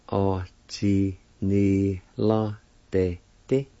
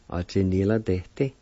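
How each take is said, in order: First: O chi ni la de ti said slowly and joined, rising on ti; slow model of the whole word. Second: Said in the usual way. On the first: Shown as a demonstration. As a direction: blend O chi ni la de ti together slowly. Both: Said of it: "pronounced like this".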